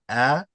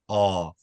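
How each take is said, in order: First: The vowel is said with the mouth wide open. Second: The vowel is said with the lips rounded. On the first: "don't open the mouth too big" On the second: "Try not to oh your mouth"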